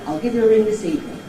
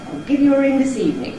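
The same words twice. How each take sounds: First: The level pitch stays somewhat lower throughout. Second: The level pitch stays relatively high throughout. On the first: "Sometimes it's not as high as that" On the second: "Where I demonstrated it there was relatively high"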